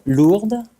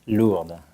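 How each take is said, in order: First: Lourdes called out high and loud with a rising tune; name called out. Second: Said in the usual way. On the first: Shown as a demonstration. Thanking the host by name, calling it out high and loud. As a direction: sing out Lourdes warmly, rising. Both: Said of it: "It's a very interesting name for French".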